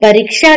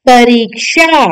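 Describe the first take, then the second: First: परीक्षा with a short i in री; wrong short i. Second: परीक्षा with a long ee in री; correct long i. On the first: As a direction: say परीक्षा as "pariksha". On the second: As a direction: say परीक्षा slowly as "pareeksha". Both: Shown as a demonstration. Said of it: "परीक्षा नहीं".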